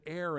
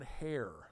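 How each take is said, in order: First: The word begins with a vowel, no H sound. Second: The word begins with a clear H sound. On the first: The speaker calls it right. "you said heir" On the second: The speaker calls it wrong. "and not hair"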